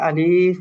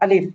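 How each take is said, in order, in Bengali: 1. শব্দটি ধীরে ও টেনে বলা হয়েছে। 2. শব্দটি ছোট ও দ্রুত বলা হয়েছে। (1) "আমরা অনেকে আলিফ বলি, তো এটা শুদ্ধ না" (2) "শুদ্ধ উচ্চারণ হচ্ছে এটা আলিফ, একটু তাড়াতাড়ি হবে"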